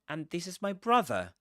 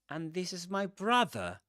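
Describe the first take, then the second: No difference in how they are said.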